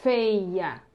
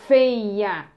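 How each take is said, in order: First: Said in the usual way. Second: "Feia" loud and stretched, long f into held vowels; sounded-out word. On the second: Shown as a demonstration. Teacher blends the word for pupils, loud and drawn-out. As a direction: draw out every sound of "Feia". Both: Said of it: "a gente juntou aqui".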